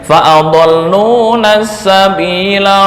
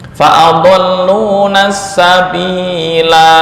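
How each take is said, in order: First: The final vowel of sabila is said short. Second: The final vowel of sabila is held long. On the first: The reciter continues into the next word. "ya, pendek" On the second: The reciter stops after this word. "ketika ketika waqaf"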